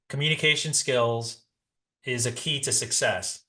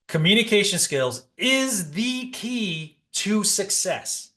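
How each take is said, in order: First: It is said flatly, with little energy. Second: It is said with emphasis and lively energy. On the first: The speaker calls it wrong. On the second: The speaker calls it right.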